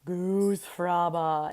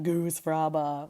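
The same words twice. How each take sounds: First: Slow drawn-out Goose fraba, GOOSE stretched; mantra. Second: Slow low Goose fraba, GOOSE stretched; mantra. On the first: Calming herself at her desk, slow chanting Goose fraba. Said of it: "I used to say to myself". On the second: Calming herself at her desk, slow murmured Goose fraba. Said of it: "I'd be like". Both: Retold or imitated.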